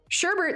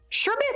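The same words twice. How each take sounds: First: The second syllable has an R sound. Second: The second syllable has no R sound. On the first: The speaker calls it right. "Sherbet seems natural. They just need to officially add another R in there" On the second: The speaker calls it wrong. "Sherbet seems weird"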